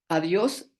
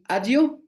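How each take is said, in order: First: The final s is fully pronounced. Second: The final s becomes a breathy h sound.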